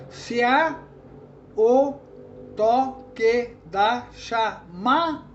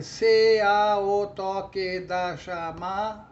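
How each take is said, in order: First: Very slow, every syllable separate, "C A" as one beat. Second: Slow, even chant with "C" and "A" split; counting normal syllables. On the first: Teacher counting seven poetic syllables, syllable by syllable. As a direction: count out "toque da chama" with gaps, ending on "ma". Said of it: "contar essas duas como uma sílaba só". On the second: Teacher counting all nine common syllables, evenly chanted. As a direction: count every syllable through the final "da" of "chamada". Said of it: "contar as sílabas normais". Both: Shown as a demonstration.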